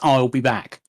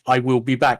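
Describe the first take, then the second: First: I will is contracted to one syllable. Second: I will is said as two full words. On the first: The speaker calls it right. "no, no, no ... It's, it's, I'll be back" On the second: The speaker calls it wrong. "his natural inclination was to say, I will be back"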